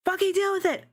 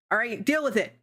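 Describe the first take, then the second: First: High, sassy defiance; defiant. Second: Said in the usual way. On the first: Real, not acted. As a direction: toss it off with attitude. Defiant repeat, pitched way up.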